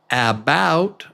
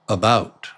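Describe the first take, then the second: First: The first vowel is pronounced fully. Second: The first vowel is reduced to a quick schwa. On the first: The speaker calls it wrong. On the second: The speaker calls it right.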